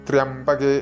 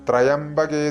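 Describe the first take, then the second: Both takes have the same delivery.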